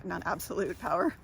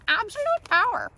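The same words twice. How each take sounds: First: Said in the usual way. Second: High, loud hammed-up proclamation; mock power cry. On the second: Speaker jokes about having absolute power, mock power cry. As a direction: belt it out, playing power-mad.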